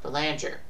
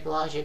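First: The name is said the commonly used way. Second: The name is said with a Canadian pronunciation. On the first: This is how others usually say it. "they call it Belanger" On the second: This is the speaker's own habitual way. "I say Belanger because of my Canadian accent"

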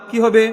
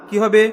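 The two takes are said the same way.

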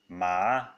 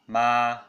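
First: The pitch rises from mid to high. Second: The pitch stays high and level. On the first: "the second tone ma" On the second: "ma with the first tone"

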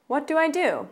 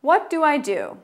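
First: It is said at a faster pace. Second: It is said at a slower pace.

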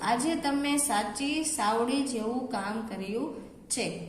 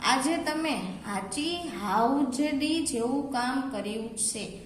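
First: The key words begin with an s sound. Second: The key words begin with an h sound.

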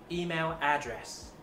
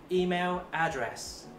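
Both takes have the same delivery.

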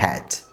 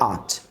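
First: The word is said in full with the h. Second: The word is reduced with the h dropped. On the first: The word ends the sentence. "যদি বাক্যের শেষে আসে তাহলে তার উচ্চারণ করতে হবে হ্যাড" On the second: The word is in the middle of the sentence. "যদি বাক্যের মাঝে আসে তাহলে তার উচ্চারণ করতে হবে আট"

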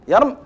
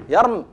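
First: The word ends on a bare final consonant. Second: The word ends on a bare final consonant.

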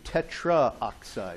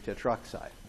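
First: The vowel a before oxide is pronounced. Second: The vowel a before oxide is dropped. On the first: The speaker calls it wrong. "we don't say tetraoxide" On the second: The speaker calls it right. "we say tetroxide"

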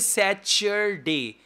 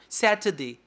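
First: The middle consonant sounds like ch. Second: The middle consonant is a clear t. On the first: The speaker calls it wrong. "don't say Saturday. Char. Char is wrong" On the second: The speaker calls it right. "T sound"

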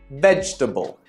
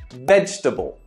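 First: A middle syllable of the word is dropped. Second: The same.

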